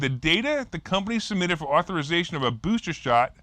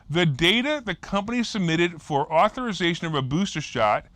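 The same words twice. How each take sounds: First: The sentence is read at a normal pace. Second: The sentence is read slowly and deliberately.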